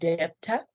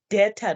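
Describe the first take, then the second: First: It is said with a b sound in the middle. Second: It is said as det-a, with no b sound. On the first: The speaker calls it wrong. "not debtor" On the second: The speaker calls it right. "It's called a debtor"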